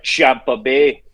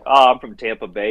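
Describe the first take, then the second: First: "Champa Bay" drawn out slowly with a CH in place of the T; mock Irish "Champa Bay", said slowly with a CH sound; Irish mispronunciation. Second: Said in the usual way. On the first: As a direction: stretch out "Champa Bay" like the Irish barman hearing it wrong. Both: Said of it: "Even the Irish know it".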